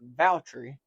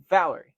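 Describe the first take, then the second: First: The T sound in the middle is clearly pronounced. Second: The T sound in the middle is nearly silent. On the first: The speaker calls it right. "first one was right" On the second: The speaker calls it wrong. "there's a little silent T in there"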